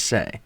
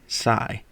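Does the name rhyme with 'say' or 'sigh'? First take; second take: say; sigh. First: The name rhymes with 'say'. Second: The name rhymes with 'sigh'. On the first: The speaker calls it right. "It is Say. That that is um, how it was pronounced today" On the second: The speaker calls it wrong. "It's not Sai"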